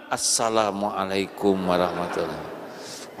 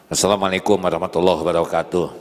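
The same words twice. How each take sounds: First: Softer, lower, unhurried salam; calm soothing greeting. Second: Rattled off fast without a smile; unsmiling rushed greeting. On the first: Pretend. Husband greets his sulking wife, softly calm. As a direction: answer the sulk with gentle calm. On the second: Shown as a demonstration. Preacher shows a greeting with no smile, hurried. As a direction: toss the greeting off quickly and coldly. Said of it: "Senyum tidak nih saya".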